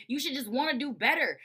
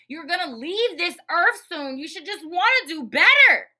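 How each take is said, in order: First: Said in the usual way. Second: Building to a high, loud yell; emphatic exhortation. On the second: Real, not acted. Host urging listeners to do better, rising to a yell. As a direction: plead it louder, peaking on BETTER.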